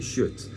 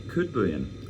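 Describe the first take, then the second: First: The name begins with a soft sh-like sound. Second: The name begins with a hard K sound. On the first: "In Sweden, we would say Schut ... the soft K" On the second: "I think they should say Kudbuen"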